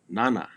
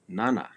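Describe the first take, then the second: No difference in how they are said.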